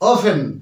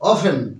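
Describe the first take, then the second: The two takes are said the same way.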